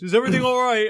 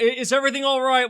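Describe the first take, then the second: First: It is said in a deep voice. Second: It is said in a normal voice.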